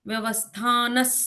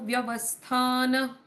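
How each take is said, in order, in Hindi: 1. शब्द s ध्वनि पर खत्म होता है। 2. शब्द सांस वाली h ध्वनि पर खत्म होता है।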